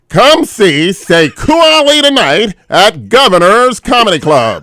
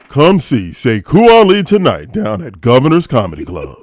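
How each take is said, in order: First: It is said in a nerdy white voice. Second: It is said in an urban voice.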